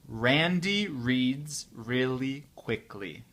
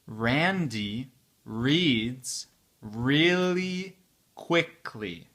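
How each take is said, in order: First: The sentence is spoken at a normal speed. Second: The sentence is spoken at a slow speed. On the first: "un peu plus vite, à la vitesse euh, normale" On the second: "c'est la vitesse lente"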